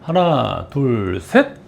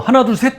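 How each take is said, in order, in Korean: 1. 세는 속도가 느리고 간격이 일정합니다. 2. 세는 속도가 빠르고 서두릅니다. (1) "세 박자 반 정도에 이루어져야 되고요" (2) "너무 빨리 쳐져요"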